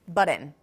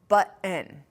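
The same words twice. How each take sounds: First: The t is a quick flap between two vowels. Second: A glottal stop is followed by a full vowel before n. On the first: This is the second newer change. "enables T to become a flap" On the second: This is the first newer change. "this nasal release gets pronounced with a full vowel"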